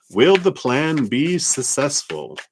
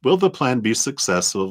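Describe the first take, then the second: First: Will the plan be successful? said higher, slow and weighty, stress on will; stressed question. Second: Said in the usual way. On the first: Shown as a demonstration. Tarot reader puts the viewer's question to the cards, slow and stressed. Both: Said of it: "So based on current energies".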